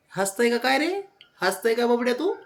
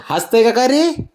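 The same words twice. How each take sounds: First: High but softer cooing question; soft pet talk. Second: High, louder teasing question; pet talk. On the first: Owner cooing softly at her dog, high. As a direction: coo the question gently. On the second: Owner teasing her dog, high and louder. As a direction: tease the dog brightly, high. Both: Real, not acted.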